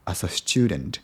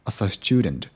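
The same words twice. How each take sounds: The two takes are said the same way.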